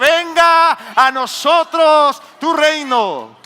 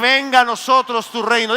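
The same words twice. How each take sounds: First: It is said loudest of all. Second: It is said louder than before.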